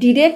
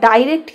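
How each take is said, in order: First: The first syllable has a short 'i' vowel. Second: The first syllable has an 'eye' vowel. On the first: "ডিরেক্ট উচ্চারণ একটা American উচ্চারণ" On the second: "একটা হচ্ছে British বা ইংরেজদের pronunciation"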